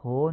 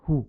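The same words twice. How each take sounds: First: هو said as "ho"; Persian o. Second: هو said as short "hu"; clipped "hu" for هو, not "ho"; Arabic u. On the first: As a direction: open rounded o in هو. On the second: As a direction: tight short u in هو. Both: Shown as a demonstration. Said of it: "هو نیست".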